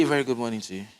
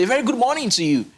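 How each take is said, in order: First: Said in the usual way. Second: Greeting with pitch lifted high on key words; raised-pitch demo greeting; lively high greeting. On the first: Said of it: "I want you to say". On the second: Shown as a demonstration. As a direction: sing out the greeting with bright tonality. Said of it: "if I'm saying something".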